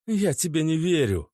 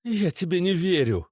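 First: High, firm denial; girlfriend refusing. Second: Angry refusal. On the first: Natasha refuses to believe Oleg. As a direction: push back. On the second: Natasha rejects Oleg, angrier. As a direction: snap it back. Repeated, louder. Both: A narrator's reading.

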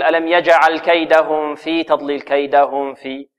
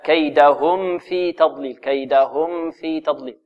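First: Hide the mim of "كيدهم" as it runs into "في"; wrong recitation. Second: "كيدهم في" with a clearly sounded mim, slow recitation; correct clear mim. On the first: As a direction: mistaken demo, "كيدهم في" with a lingering muffled mim. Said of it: "لا نقول". (تلاوة خاطئة بإخفاء ميم «كيدهم» عند «في») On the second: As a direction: recite "كيدهم" slowly, mim distinct before "في". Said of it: "لا،". (إظهار ميم «كيدهم» عند «في» بترتيل) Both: Shown as a demonstration.

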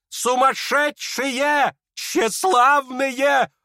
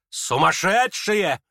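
First: High, very slow indignant outcry; outraged cry. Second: Exasperated, drawn out; slow scornful exclamation. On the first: Lizaveta denounces the guests, drawn-out outrage. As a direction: stretch each insult out in fury. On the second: Lizaveta scorns the crowd, drawn-out contempt. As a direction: drag the word out in contempt. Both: Acted.

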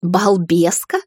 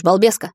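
First: Drawn-out questioning repeat of the nickname; long, rising, sceptical question; raised-eyebrow echo. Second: Teasing nickname on a rising question; casual, mildly mocking address; smirking. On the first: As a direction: echo it back, mildly affronted. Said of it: "вздёрнула я бровь". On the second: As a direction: lightly tease with the name. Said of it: "хмыкнул он". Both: A narrator's reading.

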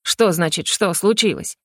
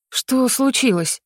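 First: Mildly angry echoed question; understated irate comeback; indignant retort. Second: Slow, higher СЛУЧИЛОСЬ of concern; drawn-out worried question on случилось. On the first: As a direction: throw the question back, affronted. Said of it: "с каждой фразой повышая голос". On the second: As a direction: ask случилось slowly, voice lifted. Alarmed at the rector's changed look. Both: A narrator's reading.

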